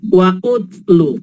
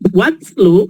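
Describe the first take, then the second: First: An extra 'u' vowel comes before the 't'. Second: The 'wa' runs straight into the 't'. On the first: The speaker calls it wrong. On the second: The speaker calls it right.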